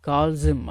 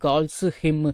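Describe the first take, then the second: First: The two words run together without a break. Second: The two words are said separately, not linked. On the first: The speaker calls it right. "சேர்த்து உச்சரிங்க" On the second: The speaker calls it wrong. "அப்படின்னு உச்சரிக்க வேண்டாம்"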